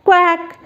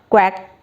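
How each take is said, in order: First: High-pitched quack like a duck. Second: Said in the usual way. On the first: Shown as a demonstration. Teacher imitating a duck for young pupils, high quack.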